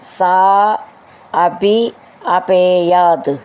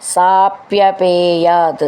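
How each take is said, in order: First: The three words are said separately. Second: The three words are merged into one.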